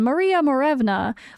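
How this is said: The name has an American pronunciation. "so you want to say is an American"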